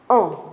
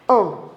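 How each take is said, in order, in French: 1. La voyelle se prononce avec les lèvres arrondies, avancées vers l'avant. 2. La voyelle se prononce avec les lèvres arrondies, avancées vers l'avant.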